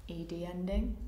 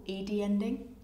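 The two takes are said the same way.

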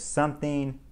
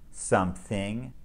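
First: Said in the usual way. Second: "something" split slowly as "some-thing", with the th clear; "something" said slowly syllable by syllable, with the th held; broken into parts. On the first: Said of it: "words that have the T H sound in the middle". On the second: Shown as a demonstration. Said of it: "breaking the words down into smaller parts".

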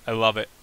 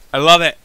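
First: Said in the usual way. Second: "I love it" repeated much louder, "love" punched; delighted louder repeat; bursting with glee; excited. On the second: Real, not acted.

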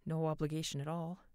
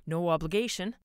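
First: Faltering voice. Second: Said in the usual way. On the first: A narrator's reading. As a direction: voice wavering and dropping. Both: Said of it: "His voice faltered".

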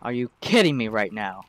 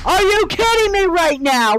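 First: Muttered disbelief. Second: Exasperated outburst. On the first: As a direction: lower and softer, under the breath. Repeated outburst, first muttered. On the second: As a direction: throw it at the screen in disbelief. Repeated outburst, then yelled. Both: Real, not acted.

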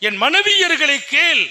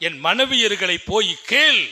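First: மனைவியர்களை raised higher and louder; stressed repeat. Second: Said in the usual way. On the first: Retold or imitated. (மனைவியர்களை அழுத்தி உரக்க)

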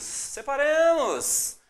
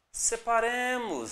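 First: "separemos" stretched slowly, hissing the s; slow drawn-out. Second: Said in the usual way. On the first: Shown as a demonstration. Teacher drawing out the word before syllable split, slow.

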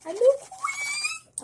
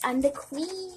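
First: Very high, loud, drawn-out squeal. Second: Said in the usual way. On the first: Real, not acted. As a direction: stretch it into a piercing high squeal. Repeats it in a squeal.

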